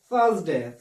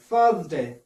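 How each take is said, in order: First: It is said in a British English accent. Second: It is said in a British English accent.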